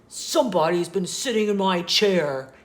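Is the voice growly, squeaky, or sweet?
growly. The voice is loud, deep and growly. "he said in his loud, growly voice"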